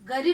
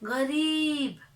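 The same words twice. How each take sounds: First: It starts with a plain g stop. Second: It starts with a throaty friction sound. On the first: The speaker calls it wrong. "गरीब नहीं" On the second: The speaker calls it right. "नुक्ते का उच्चारण करके"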